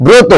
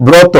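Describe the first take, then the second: First: ব্রত with a closed "o", "broto"; correct pronunciation demo. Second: ব্রত with an open "aw" vowel, "brawto"; wrong pronunciation demo. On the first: Teacher answering what it should be, ব্রত with closed "o". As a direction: say ব্রত as "bro-to", rounded o. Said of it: "এটা কি হবে?". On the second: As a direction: say ব্রত as "braw-to". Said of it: "ব্রত না". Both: Shown as a demonstration.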